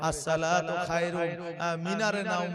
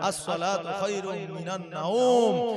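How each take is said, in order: First: The word before nawm sounds like minare. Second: The word before nawm sounds like minan. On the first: The speaker calls it wrong. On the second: The speaker calls it right.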